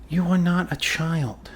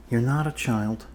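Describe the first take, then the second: First: "are" leaned on, slow and firm; stress on are. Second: "not" given the weight, even pace; stress on not. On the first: To the patient, insisting they are no child, firm stress on "are". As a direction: spell out "You are not a child" slowly, hitting "are". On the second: Repeating to the patient, stress on "not". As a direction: say "You're not a child" with the punch on "not". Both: Acted.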